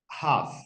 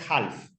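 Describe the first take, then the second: First: No L sound is pronounced in the word. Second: An L sound is pronounced in the word. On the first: The speaker calls it right. "La L no se dice" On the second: The speaker calls it wrong. "no es half"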